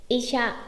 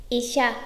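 The two takes are said the same way.

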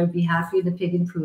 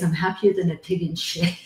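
First: The phrase is spoken very quickly. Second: The phrase is spoken very slowly. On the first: "I said that really fast" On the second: "I'm going to say it really slow"

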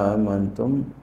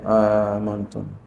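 First: Both glottal stops at the start are pronounced. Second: The second glottal stop becomes a long vowel. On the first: "dengan menegaskan dua hamzah" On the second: "membadalkan yang kedua, alifan menjadi alif"

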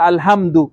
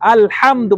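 First: The h is a light, ordinary sound. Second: The h is a deep, throaty sound. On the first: The speaker calls it wrong. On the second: The speaker calls it right.

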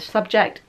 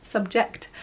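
First: The s sound is lisped. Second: The s sound is clear. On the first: The speaker calls it wrong. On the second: The speaker calls it right.

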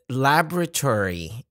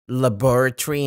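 First: It is said with an American English pronunciation. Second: It is said with a British English pronunciation. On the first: "laboratory in American English" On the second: "Laboratory in British English"

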